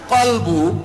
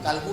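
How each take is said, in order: First: It begins with a deep q and rounded o. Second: It begins with a plain k and open a. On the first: It means the heart, which turns back and forth. The speaker calls it right. "kolbu artinya berbolak-balik" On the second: It means dog. The speaker calls it wrong. "Hati bahasa Arabnya bukan kalbu, kalbu anjing"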